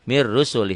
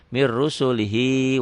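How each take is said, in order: First: The phrase stops short, ending on li. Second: The phrase carries on, ending with lihi. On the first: The reader stops at this point. "Kalau dihentikan dibacanya jadi pendek" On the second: The reader continues into the next words. "kalau disambung diteruskan"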